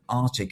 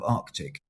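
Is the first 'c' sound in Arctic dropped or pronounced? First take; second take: dropped; pronounced. First: The first c sound is dropped. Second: The first c sound is pronounced. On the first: The speaker calls it wrong. "if anybody said Arctic" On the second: The speaker calls it right. "instead of Arctic"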